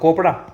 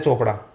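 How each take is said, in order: First: The word begins with a k sound. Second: The word begins with a ch sound. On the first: The speaker calls it wrong. "इसको क्या पढ़ो, कोपड़ा? नहीं" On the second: The speaker calls it right. "इसको पढ़ते चोपड़ा"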